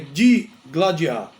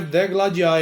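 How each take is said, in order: First: The first syllable sounds like 'di'. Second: The first syllable sounds like 'de'. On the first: The speaker calls it right. "é digladiar. E deve ser escrito com I" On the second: The speaker calls it wrong. "O verbo não é degladiar"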